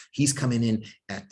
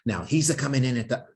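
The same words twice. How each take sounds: First: Said in the usual way. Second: Slightly higher mock Italian accent on "he's a coming". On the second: Lecturer slipping into a mock Italian accent, then catching himself. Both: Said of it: "no more Italian accent".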